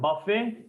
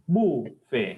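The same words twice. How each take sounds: First: The final T sound is pronounced. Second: The final T sound is silent. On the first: The speaker calls it wrong. "Not buffet" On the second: The speaker calls it right. "T silent hai"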